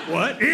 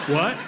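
The two takes are said the same way.

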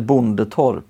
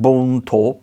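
First: The name is said in full with three syllables. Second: The name is shortened to two syllables. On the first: The speaker calls it wrong. "Inte Bondetorp" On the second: The speaker calls it right. "riktigt nybroitiska, då är det Bontorp"

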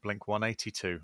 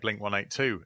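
First: The number is read the American way. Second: The number is read the speaker's own usual way. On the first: "like they do in Americans" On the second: "we say Blink 182"

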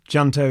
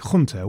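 First: The word is pronounced the English way. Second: The word is pronounced the Spanish way. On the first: "I am using the English pronunciation advisedly" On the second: "the Spanish would probably say something like junto"

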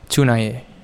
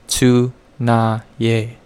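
First: The word is said quickly, at full speed. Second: The word is said slowly, syllable by syllable. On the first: "Now at full speed" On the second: "Let's slow that down a little bit"

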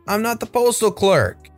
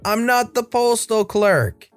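First: It is shouted at a loud volume. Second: It is shouted at an even louder volume.

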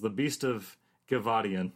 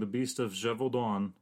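First: The name has an extra 'ee' sound. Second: The name has no extra 'ee' sound. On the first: The speaker calls it wrong. "as the Beast of Gevaudan. There's no I's in there" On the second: The speaker calls it right. "I have been pronouncing the Beast of Gevaudan"

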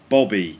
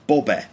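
First: The word is said with standard British vowels. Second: The word is said with distorted vowels. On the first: The speaker calls it right. "It's actually Bobby" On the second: The speaker calls it wrong. "And she said Bobbe. Bobbe. But completely wrong"

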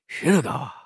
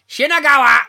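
First: It is said in a soft, warm tone. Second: It is shouted in a harsh, forceful tone. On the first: "in a nice voice" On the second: "That's how they say it on the train"

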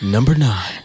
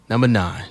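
First: It is said in a put-on radio voice. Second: It is said in a normal speaking voice.

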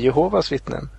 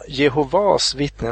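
First: The stress falls before the last syllable of Jehovas. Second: The stress falls on the last syllable of Jehovas. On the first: "alla säger Jehovas liksom" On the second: "betoningen ligger på sista A"

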